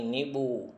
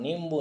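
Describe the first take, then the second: First: नींबू said ni-bu, without the m; no m consonant before the b in नींबू; correct pronunciation. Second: नींबू said nim-bu, with an m before b; nasal consonant before the b in नींबू; wrong pronunciation. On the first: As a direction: go straight from ni to bu in नींबू. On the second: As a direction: sound the m in नींबू. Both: Shown as a demonstration. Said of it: "नींबू नहीं".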